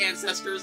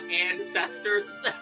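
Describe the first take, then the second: First: The word is said in an ordinary, plain way. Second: The word is said in an odd, exaggerated way. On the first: The speaker calls it right. "Just say ancestors like regular" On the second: The speaker calls it wrong. "not ancestors"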